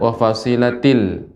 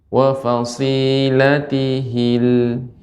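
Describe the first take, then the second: First: No 'hi' syllable follows 'fasilat'. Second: A 'hi' syllable follows 'fasilat'. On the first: The speaker calls it wrong. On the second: The speaker calls it right. "Perhatikan, Nek, ada hi"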